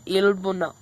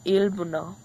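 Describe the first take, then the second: First: "ilbuno" said slowly and clearly, syllable by syllable; slow pronunciation demo. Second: "ilbuno" repeated at normal pace with a light rise; quick repeat. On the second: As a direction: echo "ilbuno" casually. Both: Shown as a demonstration. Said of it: "se dice".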